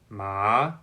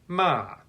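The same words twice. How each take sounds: First: The pitch rises from middle to high. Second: The pitch falls sharply from high to low. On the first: "The second tone is rising" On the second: "the fourth tone is falling"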